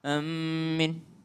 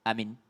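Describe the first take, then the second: First: The m is doubled and the last vowel long. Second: Both vowels are short and the m is single. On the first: "dengan mentasydidkan mimnya" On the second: "Hamzanya pendek, minnya juga pendek"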